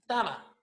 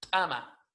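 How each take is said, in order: First: The first consonant is not glottalized. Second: The first consonant is a sharp glottalized burst. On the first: The speaker calls it wrong. "No decimos tama" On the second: The speaker calls it right. "La palabra correcta es tama, golpeado"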